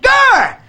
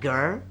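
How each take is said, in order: First: It is screamed loudly. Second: It is said calmly and quietly.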